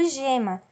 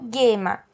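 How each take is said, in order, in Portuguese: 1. O G é um som suave, como zh. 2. O G é um som duro, como em go. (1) "eu falo gema, ok? Então, o som é J" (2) "eu não falo gema"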